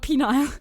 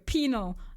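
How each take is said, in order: First: The second syllable sounds like 'Nile', the river. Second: The second syllable is a short, reduced 'nal'. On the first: The speaker calls it wrong. "not like the river" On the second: The speaker calls it right. "Penal, not penile"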